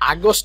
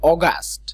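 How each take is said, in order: First: The first vowel sounds like 'ah'. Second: The first vowel sounds like 'aw'. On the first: The speaker calls it wrong. "আগস্ট না" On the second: The speaker calls it right. "এটা একটু clear থাকতে হবে"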